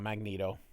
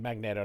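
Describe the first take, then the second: First: The middle vowel is a long ee sound. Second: The middle vowel is short, as in magnet. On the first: The speaker calls it wrong. "not Magneto, not Magneet" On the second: The speaker calls it right. "I say Magneto, it's Magnet with an O"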